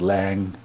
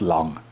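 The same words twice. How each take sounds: First: The name is said with an American pronunciation. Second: The name is said with a German pronunciation. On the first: The speaker calls it wrong. "The American friends usually pronounce it Lang" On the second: The speaker calls it right. "but uh, it's Lang"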